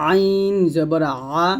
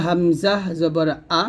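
First: আইন জবর আ very slow, squeezed from mid-throat; pressed throat ayin. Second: হামজা জবর আ with a clean আ from the bottom of the throat; simple unsqueezed আ after হামজা জবর; throat-start hamza. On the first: Teacher contrasting three letters, pressed ayin. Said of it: "গলার মাঝখান থেকে একটু চাপ দিয়ে". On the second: Teacher contrasting three letters, clean hamza. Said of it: "গলার শুরু থেকে আমরা বলবো". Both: Shown as a demonstration.

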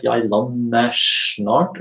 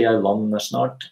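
First: "Jeg lander snart" said slowly, each word apart; unlinked, slow and separate. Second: "Jeg lander snart" run together, rs becomes sh; linked, quick. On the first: Teacher showing the wrong way, said slow and apart. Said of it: "it's not something like". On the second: Teacher showing the right way, quick and linked. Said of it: "you would say". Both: Shown as a demonstration.

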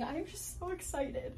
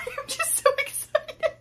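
First: Said in the usual way. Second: Squealing with excitement, high and laughing; excited. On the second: Real, not acted. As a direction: gush with giddy excitement.

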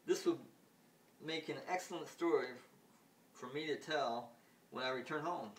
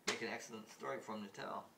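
First: Higher and louder, gloating; amused ruler. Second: Said in the usual way. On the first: Retold or imitated. Ruler gloats over his story, high and loud. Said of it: "Then the ruler goes". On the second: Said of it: "So when he returns".

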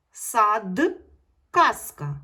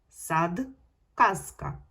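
First: "сад, казка" much louder, final д and з fully voiced; teacher ringing out the voiced consonants; loud voiced endings. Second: "Сад, казка" louder with the д and з voiced; teacher modelling for pupils to repeat; voiced endings again. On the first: Teacher to pupils, loudly voicing the final consonants. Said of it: "вимовляємо дзвінко". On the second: Teacher to pupils, voicing д and з for them to repeat. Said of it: "промовте ці слова дзвінко". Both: Shown as a demonstration.

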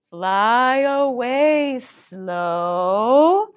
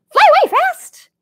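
First: Slow-motion drawl. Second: Much higher, quick and louder; high quick squeak; fast. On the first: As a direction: drag it out lazily. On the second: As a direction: zip it out like a darting bird. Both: Shown as a demonstration.

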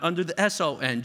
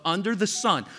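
First: "S O N" spelled letter by letter; "S O N" said as three separate letters. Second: Said in the usual way. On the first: Shown as a demonstration. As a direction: spell out S O N, letter by letter, to set it apart from "sun". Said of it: "Jesus, but under the sun". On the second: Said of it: "not under the S O N".

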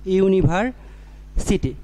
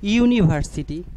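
First: ইউনিভার্সিটি drawn out slowly, each sound clear; slow careful pronunciation. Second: Said in the usual way. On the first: Shown as a demonstration. Teacher sounding out a word for students, slowly. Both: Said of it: "আমি যদি বলি".

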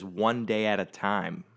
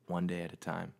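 First: Said in the usual way. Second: "One day at a time" much softer and lower, to himself; quiet repeat. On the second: Real, not acted. Repeating the mug motto to himself, quietly. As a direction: let "One day at a time" sink in, softly.

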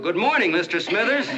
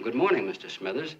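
First: Booming, high-pitched holler of a greeting; huge reenacted yell. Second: Half-hearted call over to a neighbor; mild retold yell. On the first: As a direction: yell it to be heard in the next county. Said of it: "So in a voice you could have heard in the next county, I yelled". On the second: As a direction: call out a tentative greeting, only slightly raised. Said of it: "so I yelled over to him".

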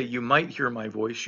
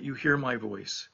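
First: "might" leaned on with a doubtful lift; stress on might. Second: "hear" said firm and sure, a bit softer; stress on hear. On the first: Pastor showing the congregation the wrong word, stress on "might". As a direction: press the word "might" as the unsure version. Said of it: "notice he doesn't say". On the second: Pastor giving the psalm's true wording, stress on "hear". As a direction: settle on "hear" with quiet certainty. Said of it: "notice he doesn't say ... but". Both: Shown as a demonstration.

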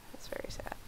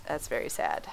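First: Breathy mock-sad whisper; soft mock-mournful whisper. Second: Said in the usual way. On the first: Shown as a demonstration. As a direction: whisper it under your breath. Repeats line whispered.

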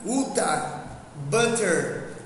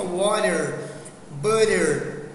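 First: British English "uta" and "butter" with a clean, crisp t. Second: American English "water" and "butter" with the t turned into a quick r-like flap; American English "water, butter", flapped t. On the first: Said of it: "E o britânico". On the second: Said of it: "troca esse T aí do water e do butter por R". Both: Shown as a demonstration.

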